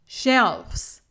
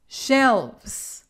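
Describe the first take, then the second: First: "Shelves" said as shelfs with a hard f; the wrong plural "Shelves" ending in f-s. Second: "shelves" with a buzzing v before the s; "shelves" ending in a voiced v-z; correct plural. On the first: Teacher shows the wrong form "Shelves", shelfs. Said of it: "Esto está incorrecto". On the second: Teacher gives the right form "shelves" with a clear v. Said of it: "El plural correcto es". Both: Shown as a demonstration.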